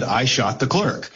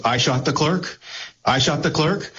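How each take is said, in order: First: Flat, matter-of-fact statement read back; deadpan. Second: Rising, disbelieving New York repeat; incredulous question. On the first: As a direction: read it dry like a court transcript. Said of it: "the sheriff deadpan says". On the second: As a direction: ask it like you can't believe the accusation. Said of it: "the intonation and your read on New York sarcasm, or disbelief and questioning". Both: Retold or imitated.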